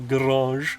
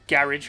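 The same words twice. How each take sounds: First: It is said with a non-English pronunciation. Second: It is said with an English pronunciation. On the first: "I do not say garage" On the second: "I'm English"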